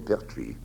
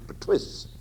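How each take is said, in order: First: The name is pronounced the French way. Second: The name is pronounced the English way. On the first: This is the family's original name. The speaker calls it right. "nobody could pronounce the name properly" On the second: This is how the English mispronounced it. The speaker calls it wrong. "the illiterate English pronounced it Pertwis"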